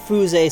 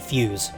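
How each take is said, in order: First: The name is pronounced in a Japanese-sounding way. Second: The name is pronounced like the English word fuse. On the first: "Fuze sounds more Japanese" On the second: "than fuse"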